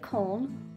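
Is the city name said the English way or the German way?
German. The name is said with German pronunciation. "you can pronounce this the German way"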